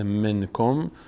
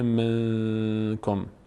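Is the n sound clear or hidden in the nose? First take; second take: clear; nasal. First: The n is pronounced clearly with the tongue. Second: The n is hidden and sounded through the nose.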